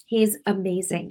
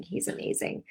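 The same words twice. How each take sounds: First: Said in the usual way. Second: "He's amazing" repeated in a soft whisper; whispered echo. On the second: Real, not acted. Praising God to viewers, repeated as a whisper. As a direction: breathe "He's amazing" the second time.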